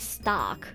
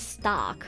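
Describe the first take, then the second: First: The name is said the English way, one syllable. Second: The same.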